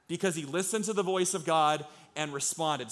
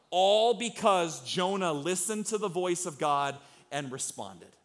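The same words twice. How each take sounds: First: Said in the usual way. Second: Slow, weighty preaching build; slow emphatic. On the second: Shown as a demonstration. Preacher driving the point home to the congregation, slow and weighty. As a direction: lean into every word, slowly.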